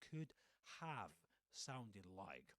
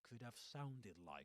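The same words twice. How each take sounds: First: "Have" is said fully as a separate word. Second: "Have" is reduced and contracted into "could've." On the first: The speaker calls it wrong. "not could have sounded like" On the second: The speaker calls it right. "they are contracted"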